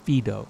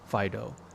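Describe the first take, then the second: First: The name has a Latin pronunciation. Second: The name has an ordinary English pronunciation.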